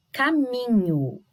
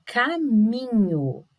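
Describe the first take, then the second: First: "caminho" with MI brought out; stress on MI. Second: "caminho" slowly split, ca-MI-nho, MI strongest; drawn-out stress on MI. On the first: Teacher demonstrating for pupils, stressed MI. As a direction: lean on the middle syllable of "caminho". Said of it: "não parece mais forte?". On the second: Teacher checking the tonic syllable, slow stressed MI. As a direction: stretch each syllable of "caminho", leaning on MI. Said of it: "é o mi mesmo". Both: Shown as a demonstration.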